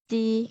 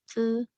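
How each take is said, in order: First: The vowel is a clear front 'ee'. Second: The vowel is a buzzy, central sound. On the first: The speaker calls it wrong. "bukan ci" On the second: The speaker calls it right. "dibacanya ce"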